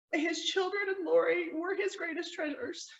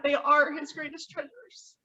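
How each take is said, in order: First: Said in the usual way. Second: Slow, deliberate correction with ARE stressed. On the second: Real, not acted. Sister-in-law rephrasing her tribute to the present tense, firm stress on "are". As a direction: lean firmly on the word "are". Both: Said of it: "I'm gonna rephrase that".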